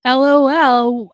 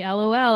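First: "L O L" spelled out slowly and louder, each letter stretched; a teasing, exaggerated "L O L"; mocking drawn-out LOL. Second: Said in the usual way. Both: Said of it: "But he's like".

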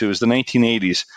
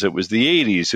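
First: Quick self-correction, leaning on "nineteen"; stress on nineteen. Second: Said in the usual way. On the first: Shown as a demonstration. Correcting himself to a friend, "nineteen" stressed quickly. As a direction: fix it fast and lean on the word "nineteen".

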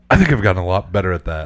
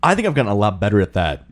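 First: Quick, rushed mimicry of friend; imitating fast talk. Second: Rushed, quick delivery; talking too fast. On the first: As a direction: rattle it off quickly, mocking. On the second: Real, not acted. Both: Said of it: "right there you said".

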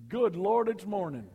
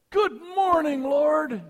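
First: Mock groan. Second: Much higher, bright and loud, leaping out of bed; cheery morning greeting. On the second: Retold or imitated. Leaper getting up, a bouncy eager hello to the Lord. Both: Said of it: "Some folks get up and say".

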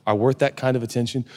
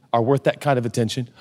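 The two takes are said the same way.

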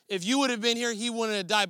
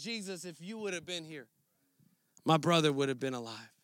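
First: Indignant. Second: Much softer and lower, broken plea; heartfelt, grieving. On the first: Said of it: "Martha came indignant". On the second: Mary at Jesus' feet, grieving her brother, hushed and aching. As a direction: pour out your grief quietly to Jesus. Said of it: "she opens up her heart". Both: Retold or imitated.

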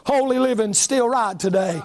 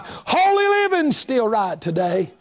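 First: Said in the usual way. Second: The refrain thrown out at full voice; preacher belting the refrain back at the congregation; shouted. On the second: Shown as a demonstration. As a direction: lift the same line into a shout.

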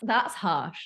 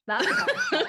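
First: Said in the usual way. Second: Much higher, squeaky repeat of That's harsh; jokey high-pitched That's harsh; mock high repeat. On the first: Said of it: "repeats line in other voice". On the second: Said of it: "repeated in put-on high voice".

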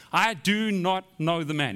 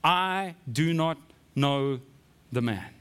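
First: Slow, firm denial under oath; flat-out denial. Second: Very slow, each word set apart; vehement sworn denial. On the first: Peter denying Jesus to bystanders, flat-out denial. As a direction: deny it flatly, word by word. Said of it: "he's just in flat out denial". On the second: Peter swearing to bystanders, vehement denial. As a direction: swear it deliberately, dropping low at the end. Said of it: "I'm so vehement in my denial". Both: Acted.

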